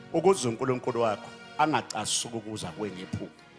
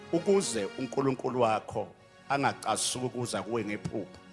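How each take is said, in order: No difference in how they are said.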